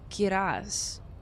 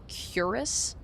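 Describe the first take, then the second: First: The word is said with a Spanish-sounding accent. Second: The word is said with an American accent. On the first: "He said it very Spanish" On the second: "Am I saying this like the most American way ever?"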